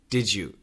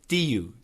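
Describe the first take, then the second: First: The words are joined with a J sound. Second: The words are joined with a Y sound. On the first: The speaker calls it right. "almost always Americans will say did you" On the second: The speaker calls it wrong. "that J kind of changes to that Y sound"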